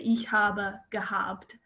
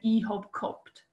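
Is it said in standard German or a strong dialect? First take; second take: standard; dialect. First: It is said in standard German. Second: It is said in a strong regional dialect.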